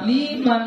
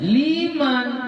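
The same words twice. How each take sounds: First: It is said with an Indonesian accent. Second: It is said with Arabic vowel lengths. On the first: The speaker calls it wrong. "nah, itu udah salah itu artinya" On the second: The speaker calls it right.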